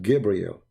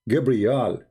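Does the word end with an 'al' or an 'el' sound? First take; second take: el; al. First: The last syllable is pronounced 'el'. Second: The last syllable is pronounced 'al'. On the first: This is the later changed form of the name. The speaker calls it wrong. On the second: This is the ancient form of the name. The speaker calls it right.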